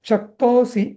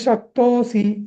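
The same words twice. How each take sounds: First: The middle syllable has normal long length. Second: The middle syllable is drawn out extra long. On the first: The speaker calls it right. "अथैतदप्य शक्तोसी असं" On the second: The speaker calls it wrong. "शक्तोसी असं नाही म्हणायचंय"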